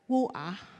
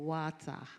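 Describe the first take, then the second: First: It is said in a Cockney accent. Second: It is said in a standard English accent.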